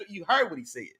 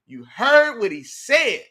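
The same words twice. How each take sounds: First: Said in the usual way. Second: Louder, slower, every word weighed; slow emphatic repeat. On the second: Real, not acted. Streamer backing up a chatter to his viewers, slow and emphatic. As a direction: drive the point home.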